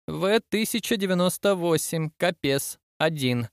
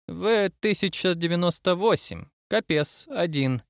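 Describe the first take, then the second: First: Lightly voiced admiral reading the list; fateful announcement. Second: Understated command, pitched higher; brooking no objection. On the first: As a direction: announce each item separately, starting higher. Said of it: "произнёс роковую фразу". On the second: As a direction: announce it item by item, allowing no argument. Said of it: "произнёс Кэссиди голосом, не терпящим возражений". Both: A narrator's reading.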